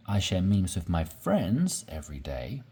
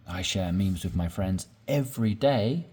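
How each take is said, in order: First: Friends stressed, tune rising after it. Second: Every day stressed at the end with a rising tune. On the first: Teacher showing learners stress on friends. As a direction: hit the word friends. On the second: Teacher showing learners stress on day. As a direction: lean on the word day. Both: Shown as a demonstration. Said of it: "your tone or intonation, uh, to emphasize something".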